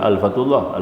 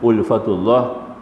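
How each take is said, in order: First: The first vowel is pronounced as a. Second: The first vowel is pronounced as u. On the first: It turns into a word about a thousand. The speaker calls it wrong. "Bukan alfatullah, alfatullah jadi seribu kacau" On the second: It means the gentleness of God's love. The speaker calls it right. "dia bunyi dengan ulfatullah"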